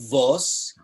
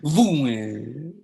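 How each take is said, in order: First: It is said with a Litvak vowel, "vos". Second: It is said with a Lodz vowel, "vuen".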